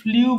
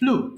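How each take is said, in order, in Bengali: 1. 'oo' স্বরের আগে একটি 'y' গ্লাইড আসে। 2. একটি সাধারণ 'oo' স্বর, কোনো 'y' গ্লাইড নেই। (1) "আমরা ভুল করে এটাকে ফ্লিউ বলে থাকি" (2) "এটা হবে ফ্লু।"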